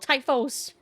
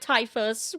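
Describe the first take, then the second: First: The last syllable is said with an 'os' sound. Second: The last syllable is said with an 'us' sound. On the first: The speaker calls it right. "It's an O" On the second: The speaker calls it wrong. "I can see why Typhus would be. No"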